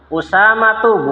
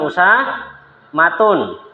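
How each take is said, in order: First: The word ends in a vowel, no final n. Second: The word ends with a final n sound. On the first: The speaker calls it right. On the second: The speaker calls it wrong.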